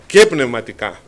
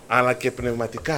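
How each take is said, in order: First: Και πνευματικά pushed out louder, weight on Και; emphatic repeat. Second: Said in the usual way. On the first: Shown as a demonstration. Preacher repeating to the brethren, louder stress on Και πνευματικά. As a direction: hit Και πνευματικά hard and clipped.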